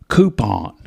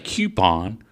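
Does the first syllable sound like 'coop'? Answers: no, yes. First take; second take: yes; no. First: The first syllable sounds like 'coop'. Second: The first syllable does not sound like 'coop'. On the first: Someone else said it this way. "like coop, like a like a chicken coop" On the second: This is how the speaker says it. "I say coupon"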